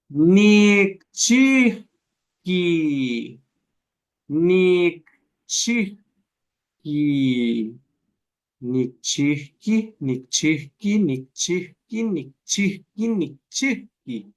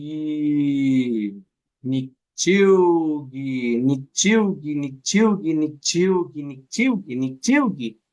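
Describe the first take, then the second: First: Slow drill with a break. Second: Nichiugi drawn out very slowly at first, then repeated quicker and smooth; slow then faster drill. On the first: Teacher shows the class the broken word at slow speed. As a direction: draw out Nikchihki slowly so the break is heard. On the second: Teacher shows the class how changing speed reveals the smooth word. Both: Shown as a demonstration. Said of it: "Díganlo lento, díganlo rápido".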